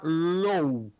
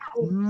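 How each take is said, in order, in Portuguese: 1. A vogal desliza como o 'low' do inglês. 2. A vogal é um som 'oo' puro. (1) "Você não pode pronunciar low" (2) "L O U é lu"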